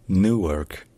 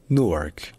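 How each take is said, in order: First: "Newark" as NOO-werk, long oo, no y; American English. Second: "Newark" as noork, short oo, no y; American short-oo variant. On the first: Teacher recapping the first variant, American long oo. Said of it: "en anglais américain, il n'y a pas de U". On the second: Teacher recapping the alternative, American short oo. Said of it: "ou bien". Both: Shown as a demonstration.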